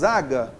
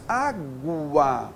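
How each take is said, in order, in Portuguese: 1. O som do U não é pronunciado. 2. O som do U é claramente pronunciado. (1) "Nós falamos água? Não" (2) "Então tem o som A, G, o U e o A"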